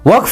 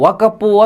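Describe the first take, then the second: First: The word ends in a bare final consonant. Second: The word ends with an added vowel syllable. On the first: The speaker calls it right. "ಆ ಒಣ್ಣಂಗೆ ವಕ್ಫ್ ಅನ್ನಕ್ಕೆ ಬರಲ್ಲ" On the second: The speaker calls it wrong. "ವಕಪ್ಪು ವಕಪ್ಪು ವಕಪ್ಪು ಅಂತದೆ"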